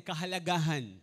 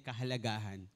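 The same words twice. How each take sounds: First: Kahalagahan called out louder. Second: Said in the usual way. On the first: Shown as a demonstration. Preacher urging the congregation to repeat kahalagahan louder. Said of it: "Mas malakas sigaw ho natin". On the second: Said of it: "Sabihin nga natin".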